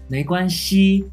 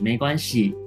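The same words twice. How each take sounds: First: The last syllable has a high level tone. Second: The last syllable has a falling tone. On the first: This is the Taiwan-accented pronunciation. "没关系一声に変わるんですね" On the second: This is a less common Taiwan-accented pronunciation. "もしくは四声に没关系"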